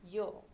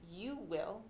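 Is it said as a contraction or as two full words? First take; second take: contraction; full words. First: It is said as one contracted syllable. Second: It is said as two full words. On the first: "you'll say" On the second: "Instead of saying"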